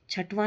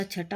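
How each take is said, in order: First: छठवा with added "va" at the end; wrong form. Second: Said in the usual way. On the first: Shown as a demonstration. Teacher rejecting a form, छठवा said with extra vaa. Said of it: "नहीं होता". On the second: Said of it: "होता है".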